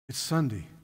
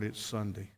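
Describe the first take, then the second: First: It is said with a glad, delighted tone. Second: It is said with a weary, dismayed tone. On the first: Going to church feels like a joy. The speaker calls it right. "Thank you, Lord" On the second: Going to church feels like a burden. The speaker calls it wrong. "Oh, good Lord"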